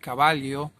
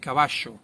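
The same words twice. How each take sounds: First: The double L is not said with a sh-like sound. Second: The double L is said with a sh-like sound. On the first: This is how other countries say it. "other countries, they would pronounce it caballo" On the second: This is how the Rio de la Plata region says it. "but we say caballo"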